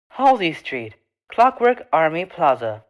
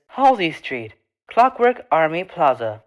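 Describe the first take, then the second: No difference in how they are said.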